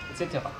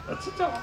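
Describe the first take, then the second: First: Said in the usual way. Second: High robot voice with garbled consonants. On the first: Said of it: "je serai son interprète". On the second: Acted. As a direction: mangle the consonants like a glitchy robot. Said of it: "souffre d'une pathologie vocale".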